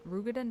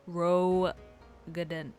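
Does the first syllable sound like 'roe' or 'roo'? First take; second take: roo; roe. First: The first syllable is said with an 'oo' vowel. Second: The first syllable is said with an 'oh' vowel. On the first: This is an odd way to say the name. The speaker calls it wrong. "Rugadin does not make sense" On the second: This is the usual way to say the name. The speaker calls it right.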